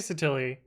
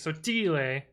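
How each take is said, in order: First: The name is said in an English-style way. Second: The name is said in an Italian way. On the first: It is an everyday non-native pronunciation. "I say Sottile, ... but I'm fake Italian" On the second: It is the authentic Italian pronunciation. "it would be Sottile in the true Italian"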